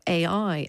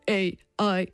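First: It is said in a normal speaking voice. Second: It is said in a put-on robot voice. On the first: The term means the technology itself. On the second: The term means AI as a cultural idea or meme.

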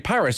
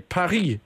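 First: Paris is pronounced the usual English way. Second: Paris is pronounced the way the French say it. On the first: "You'd never say Paris" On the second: "because that's what they call it there"

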